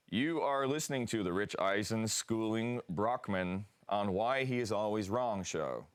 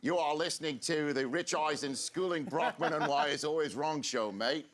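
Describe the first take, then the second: First: Put-on American announcer accent. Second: Hammed-up Australian accent, pitched higher. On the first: Australian guest reading the new show's official line, American accent. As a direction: read it in your best American accent. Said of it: "your best American accent". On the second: Host egged on to mimic an Aussie, mock Australian accent. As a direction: do a bad, lively Australian accent. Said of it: "you do it in an Australian". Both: Shown as a demonstration.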